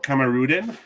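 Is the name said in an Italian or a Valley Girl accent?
Valley Girl. The name is said in a Valley Girl accent. "Or can I say the Valley Girl?"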